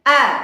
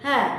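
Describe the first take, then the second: First: The vowel is clear, with no breath. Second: The vowel is breathy, with air escaping. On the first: The speaker calls it right. "suara murni tanpa nafas" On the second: The speaker calls it wrong. "maka itu tidak jelas"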